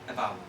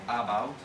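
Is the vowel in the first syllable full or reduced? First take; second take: reduced; full. First: The first syllable has a reduced schwa vowel. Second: The first syllable has a full, shaped vowel. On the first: The speaker calls it right. "the schwa sound is at the beginning" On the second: The speaker calls it wrong. "not about"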